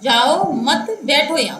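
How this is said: The pause comes after 'mat', grouping 'jao mat'.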